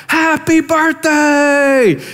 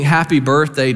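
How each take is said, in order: First: High, drawn-out shouted birthday cheer; mock crowd shout. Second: Said in the usual way. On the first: Prostitutes surprising Agnes at the bar, big shout. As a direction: belt it out like a roomful of friends. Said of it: "they shout". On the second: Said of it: "they start singing".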